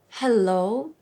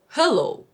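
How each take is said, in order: First: The H sound is soft and breathy. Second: The H sound is hard and guttural.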